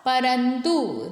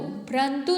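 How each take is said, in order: First: परंतु said slowly as "pa-ran-tu"; full र. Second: परंतु said as "prantu"; प्र cluster. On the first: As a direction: separate प from र in परंतु. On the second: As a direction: squash प and र together in परंतु. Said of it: "परंतु नहीं होता". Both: Shown as a demonstration.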